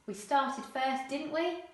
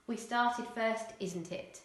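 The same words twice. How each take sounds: First: Said in the usual way. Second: "isn't it" tag said casually; casual dialect with "isn't it"; non-standard English. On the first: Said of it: "Standard English". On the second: Shown as a demonstration. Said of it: "non-standard English".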